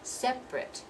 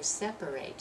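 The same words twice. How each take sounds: First: The word is said with two syllables. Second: The word is said with three syllables. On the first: The word is used as an adjective. "we drop that second syllable and we pronounce this as if it's I T" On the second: The word is used as a verb. "It's going to be three syllables"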